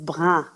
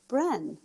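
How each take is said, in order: First: The word is said in a French way. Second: The word is said in an anglicized way. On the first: The speaker calls it right. "the word is brun" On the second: The speaker calls it wrong. "I didn't know how to pronounce it back then, so I would pronounce it Bren"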